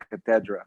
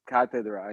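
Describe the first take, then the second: First: The stress is on the second syllable. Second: The stress is on the first syllable. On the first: "I heard you pronounce it cathedra" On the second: "I always thought it was cathedra"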